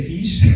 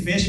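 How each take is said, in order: First: "fish" with a long ee, like "feesh"; mispronounced vowel. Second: Said in the usual way. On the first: Shown as a demonstration. Trainer recalls second-language slips, "fish" said as "feesh". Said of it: "instead of saying fish". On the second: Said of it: "instead of saying".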